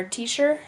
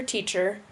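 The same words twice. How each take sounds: First: "teacher" said as "teesher"; hushing SH in the middle of "teacher". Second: Said in the usual way. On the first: Shown as a demonstration. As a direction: soften the CH in "teacher" to SH. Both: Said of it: "merging of S H and C H".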